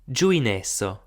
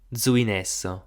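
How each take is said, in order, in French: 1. Le mot commence par un son j. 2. Le mot commence par un son z. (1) "En maritime si disum ... j" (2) "en rudanês si disum puleu ... z"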